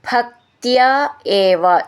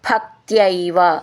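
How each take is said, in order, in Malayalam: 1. ഈ രണ്ടു വാക്കുകളും വേർതിരിച്ചാണ് ചൊല്ലുന്നത്, ചേർക്കാതെ. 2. ഈ രണ്ടു വാക്കുകളും ചേർന്ന് ഒറ്റ രൂപത്തിലാണ് ചൊല്ലുന്നത്.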